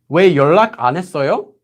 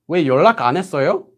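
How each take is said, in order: No difference in how they are said.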